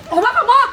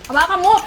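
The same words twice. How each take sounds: First: "Hawakan mo!" yelled high and loud; high, loud shouted "Hawakan mo!"; angry shout. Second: Said in the usual way. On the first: Acted. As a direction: make the repeated order a real yell. Carer repeats order, escalating.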